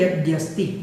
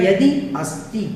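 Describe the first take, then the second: First: The two words are joined into one word. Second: The two words are said separately, unjoined. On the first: "इससे मिलकर के बनता है" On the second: "इसको अलग अलग करेंगे तो हो जाएगा"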